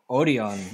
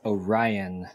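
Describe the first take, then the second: First: It is said the Korean way. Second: It is said the American way.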